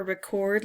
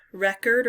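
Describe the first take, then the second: First: "record" as rih-KORD, second syllable stressed; verb pronunciation. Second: "record" as REK-erd, first syllable stressed; noun pronunciation. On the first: Player rereading the word list, "record" as rih-KORD. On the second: Player rereading the word list, "record" as REK-erd. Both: Shown as a demonstration. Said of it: "record or record".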